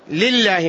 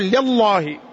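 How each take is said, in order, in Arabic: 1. اللام تُنطق مرققة. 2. اللام تُنطق مفخمة. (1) "ترقق لفظة الجلالة" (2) "ما تقول"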